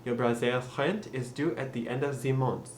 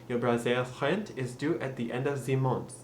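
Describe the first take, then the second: First: The sentence is said in a French accent. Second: The same.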